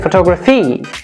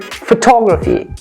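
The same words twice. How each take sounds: First: The stress is not on the T syllable. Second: The stress is on the T syllable. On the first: The speaker calls it wrong. "We do not say photography" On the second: The speaker calls it right. "We say photography"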